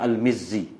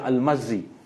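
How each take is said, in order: First: The vowel after the M is 'i'. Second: The vowel after the M is 'a'. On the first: The speaker calls it right. "sebenarnya Al-Mizzi" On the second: The speaker calls it wrong. "setengah tu dibaca Al-Mazzi"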